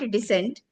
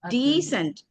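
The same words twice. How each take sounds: First: The first vowel is short. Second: The first vowel is long. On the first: The speaker calls it wrong. "not decent" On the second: The speaker calls it right. "long E"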